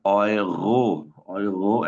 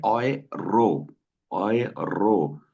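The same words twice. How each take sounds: First: ओयरो with the r as a throaty gh sound; guttural northern r. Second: ओयरो with a light, thin r, slowly; soft southern r. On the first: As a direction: say ओयरो with a gargled r at the back of the throat. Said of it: "ऐसा लगेगा जैसे गैन बोल रहे हैं". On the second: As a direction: say ओयरो with a fine, barely touched r. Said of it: "आर को एर वाली sound वाली सुन रहे होंगे, बारीक sound". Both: Shown as a demonstration.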